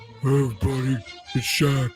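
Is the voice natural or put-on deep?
put-on deep. It is said in a put-on deep, fried voice.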